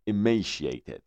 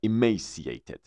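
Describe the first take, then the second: First: "emaciated" with a "sh" sound, i-MAY-shi-ated; "sh" variant. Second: "emaciated" with an "s" sound, i-MAY-si-ated; "s" variant. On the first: (تلفظ "emaciated" با صدای «ش») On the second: (تلفظ "emaciated" با صدای «س») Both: Shown as a demonstration. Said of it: "emaciated یا emaciated".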